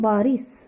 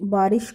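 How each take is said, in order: First: It ends with an 's' sound. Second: It ends with a 'sh' sound. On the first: The speaker calls it wrong. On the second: The speaker calls it right.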